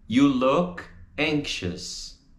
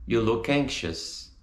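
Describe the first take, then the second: First: YOU, LOOK, ANXIOUS, slow with gaps; slow, separated model. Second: "You look anxious" flowing in one phrase; joined up. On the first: Teacher models the vowel in a slow, separated sentence. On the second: Teacher repeats for students, words joined up. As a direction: link "look" straight into "anxious". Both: Shown as a demonstration.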